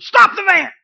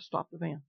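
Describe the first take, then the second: First: Much higher and louder shout; screamed command. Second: Soft, hushed command, much softer; a still small voice, barely above a breath; very quiet. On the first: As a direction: scream it to stop him in time. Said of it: "God had to scream it to me". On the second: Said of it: "Just very quiet". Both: Retold or imitated.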